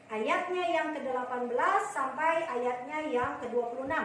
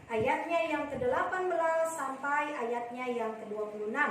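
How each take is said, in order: No difference in how they are said.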